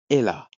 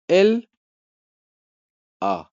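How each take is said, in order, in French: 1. Le L s'enchaîne bien avec la voyelle suivante. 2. Les deux mots se disent séparément, avec une pause. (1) "Non, c'est elle a" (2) "On ne dit pas elle a"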